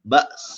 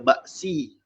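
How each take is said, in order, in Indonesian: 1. Kata ini berakhir dengan bunyi s yang ringan. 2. Kata ini berakhir dengan bunyi s dan vokal. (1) "sin tu dia ada bunyi dia" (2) "Jangan zahirkan baris si"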